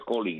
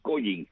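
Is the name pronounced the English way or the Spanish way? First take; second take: English; Spanish. First: The name is said with English sounds. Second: The name is read with Spanish letter sounds. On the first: "realmente la pronunciación sería Collins en inglés" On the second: "como se escribe"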